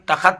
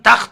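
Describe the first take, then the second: First: A short vowel separates the kh and t. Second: The kh and t are joined with no vowel. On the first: The speaker calls it wrong. "तखत तलफुज करना गलत है" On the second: The speaker calls it right. "इसका प्रोनाउंसिएशन तख्त है"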